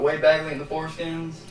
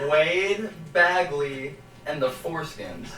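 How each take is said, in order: First: It is said at normal speed. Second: It is said slowly and deliberately.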